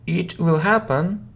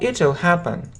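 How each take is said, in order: First: Will is said as a full separate word. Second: Will is shortened and joined to the pronoun.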